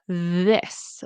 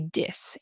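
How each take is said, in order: First: The word starts with a TH sound. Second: The word starts with a D sound. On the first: "with your tongue between your teeth" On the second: "as a T or a D sound"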